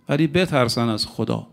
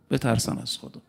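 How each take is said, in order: First: Said in the usual way. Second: Hushed warning. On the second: Shown as a demonstration. A preacher warning rivals to fear God, in a hushed voice. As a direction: let the warning sink to near silence.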